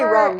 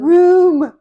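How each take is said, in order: First: The vowel is short, as in 'rum'. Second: The vowel is long, as in 'boom'. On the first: The speaker calls it wrong. "I would say rum. Like R U M" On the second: The speaker calls it right. "I have to say room"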